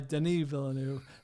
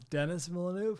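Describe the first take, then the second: First: The first name sounds like French Denis. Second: The first name sounds like English Dennis. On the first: The speaker calls it right. "French Canadian fellow goes by Denis Villeneuve" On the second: The speaker calls it wrong. "I've been pronouncing Denis Villeneuve wrong as Dennis Villeneuve"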